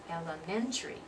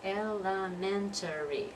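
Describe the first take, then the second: First: One syllable is dropped, giving four. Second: It is said with all five syllables. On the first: The speaker calls it right. "We're dropping that syllable" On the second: The speaker calls it wrong. "it's not elementary. It's not five syllables"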